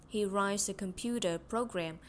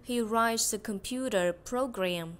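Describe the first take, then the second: First: Said in the usual way. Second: "He writes a computer program" slow and loud, each word clear; slow loud model. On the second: Shown as a demonstration. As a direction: read slowly and loudly for students to copy. (đọc chậm và to cho học sinh nhắc lại) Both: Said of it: "câu cuối là cái gì nhỉ".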